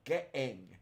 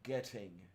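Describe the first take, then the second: First: The middle T is swallowed, barely heard. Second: The middle T is clearly pronounced.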